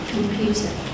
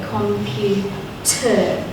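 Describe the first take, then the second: First: The last syllable has a weak, unclear vowel. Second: Every syllable is said fully and clearly. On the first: This is how it sounds in everyday speech. "you will probably say computer ... that is a schwa sound. It is an unclear vowel" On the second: This is how it is said when teaching spelling. "we need to be nice and clear with it"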